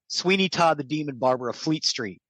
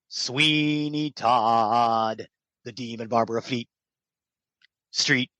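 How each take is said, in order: First: It is said flatly with no pause or punch. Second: It has a strong start, a pause, and a punchy end. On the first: The speaker calls it wrong. "I just said Sweeney Todd the Demon Barber of Fleet Street, meh" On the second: The speaker calls it right. "long punch and then quick exposition and then a pause"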